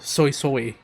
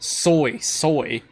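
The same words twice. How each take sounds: First: The y-glide is softened and held back. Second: The y-glide is clearly and strongly enunciated. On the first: "Everyone else has been a little bit more restraint with it" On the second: "she enunciated the Y"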